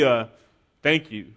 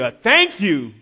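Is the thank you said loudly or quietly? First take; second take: quietly; loudly. First: It is said softly and quietly. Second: It is said loudly and with force. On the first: The gratitude is kept inward and small. "It wasn't an inward, quiet, thank you" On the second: The gratitude is openly and wholeheartedly shown. "he did it with a loud voice"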